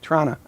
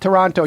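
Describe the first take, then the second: First: The second T is dropped. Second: The second T is clearly pronounced. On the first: The speaker is from the city. The speaker calls it right. "they don't put, put the hard T on it" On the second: The speaker is not from the city. The speaker calls it wrong. "if you say Toronto, you're not from there"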